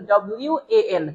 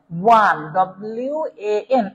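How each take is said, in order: First: ডব্লিউ এ এন spelled letter by letter at normal pace; spelled-out pronunciation. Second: ওয়ান said slowly, then spelled ডব্লিউ এ এন letter by letter; slow spelled-out pronunciation. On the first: Teacher to students, spelling ডব্লিউ এ এন at normal pace. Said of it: "উচ্চারণটা মূলত এরকম". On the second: Teacher to online class, slowly spelling ওয়ান as ডব্লিউ এ এন. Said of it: "ওয়ান এর উচ্চারণটা কেমন দেখেন". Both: Shown as a demonstration.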